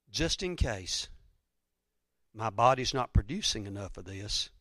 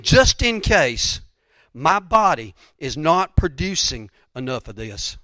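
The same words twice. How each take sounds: First: Softer, lower, measured restatement; quiet, deliberate second thought; subdued repetition. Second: Slow, forceful stress on "Just in case"; emphatic quoted reasoning. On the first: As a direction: drop the voice and say it confidingly. Same words repeated more softly. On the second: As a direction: stretch and punch "Just in case", then keep it slow. Emphatic first take of quoted reasoning. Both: Retold or imitated.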